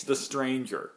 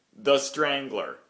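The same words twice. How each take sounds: First: "The Stranger" said slowly, with no l; setting the record straight: "The Stranger" without the l; correct name. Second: "The Strangler" said slowly and clearly, with an extra l; imitating the tour guide's "The Strangler" with a firm l; mispronounced Strangler. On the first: Shown as a demonstration. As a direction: correct it to "The Stranger", slow and plain. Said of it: "the name of the newspaper ... is not The Strangler". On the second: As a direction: retell his "The Strangler", slow and deliberate. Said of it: "which he says repeatedly".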